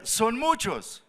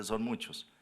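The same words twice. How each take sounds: First: "Son muchos" high and drawn out; emphatic verdict. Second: Soft, matter-of-fact reply; understated insistence. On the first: God telling Gideon his army is too big, "Son muchos" emphatic. Dios juzga grande el ejército. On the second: God answering the doubter's objection, quietly insistent. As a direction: drop the volume and state it simply. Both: Acted.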